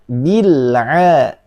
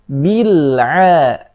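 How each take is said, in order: No difference in how they are said.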